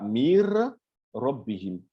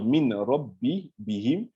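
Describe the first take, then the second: First: The n merges into a doubled r. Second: An n sound is heard before the r. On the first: The speaker calls it right. "on dira" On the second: The speaker calls it wrong. "Au lieu de dire"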